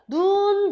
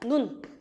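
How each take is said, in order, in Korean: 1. 모음을 길게 발음해요. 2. 모음을 짧게 끊어서 발음해요. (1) "이렇게 장음으로 발음을 합니다" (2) "딱 짧아진다는 얘기죠"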